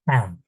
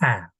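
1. Bu 'ha' hecesi kalın, ağır bir ünlüyle okunuyor. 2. Bu 'ha' hecesi ince, hafif bir ünlüyle okunuyor. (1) "bazılarına göre kalın" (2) "ince okumamız gerekiyor bazılarına göre"

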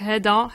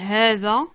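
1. La consonne du milieu est un simple 'd'. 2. La consonne du milieu est un 'th' sonore. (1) "en derija, on prononce pas le zel, on le prononce del" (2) "en arabe, on dit hadha, hadhi, avec un zel"

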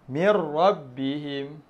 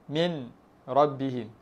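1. Bunyi n menyatu dengan r yang mengikutinya. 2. Bunyi n diucapkan dengan jelas sebelum r. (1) "hilangkan sebutan nun" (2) "Asal dia bunyinya min"

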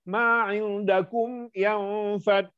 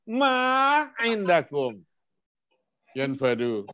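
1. Suara naik dan berlanjut melewati 'indakum'. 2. Suara turun dan berhenti setelah 'indakum'.

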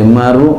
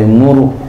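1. Vokal pertama adalah bunyi 'a'. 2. Vokal pertama adalah bunyi 'u'. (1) "bi fathil mim dengan fathah mim" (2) "dhamaknya muru"

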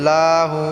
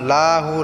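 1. প্রথম অক্ষরটি টেনে দীর্ঘ করে পড়া হয়। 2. প্রথম অক্ষরটি টেনে দীর্ঘ করে পড়া হয়।

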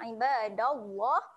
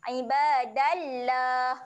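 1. Huruf L dalam Allah terdengar tebal. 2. Huruf L dalam Allah terdengar tipis.

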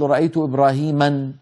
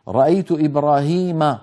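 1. ينتهي الاسم بنون زائدة. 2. ينتهي الاسم بدون نون زائدة. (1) "ما نقول" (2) "لا ينون"

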